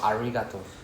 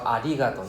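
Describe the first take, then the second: First: The r is a strong English-style r. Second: The r is a light tap, close to l. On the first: The speaker calls it wrong. "you gonna sound like some Australian trying to say Japanese" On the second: The speaker calls it right. "ari is in between R and L lah but closer to the L sound"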